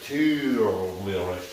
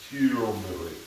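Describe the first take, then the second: First: The first syllable has a strong, drawn-out R. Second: The first syllable is said without an R. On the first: The speaker calls it right. "There's an R. I want to over enunciate it" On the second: The speaker calls it wrong. "I've been kind of mispronouncing it"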